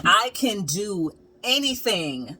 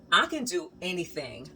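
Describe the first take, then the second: First: Slow, deliberate proud statement; slow declaration. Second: Softer, awed murmur to herself; hushed self-amazement. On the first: Proudly declaring to herself after finishing the wall, slowly. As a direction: spell it out slowly, full of confidence. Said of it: "I was literally like". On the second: Standing back from her finished wall, softly awed. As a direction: breathe it out in quiet wonder. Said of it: "I was like". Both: Retold or imitated.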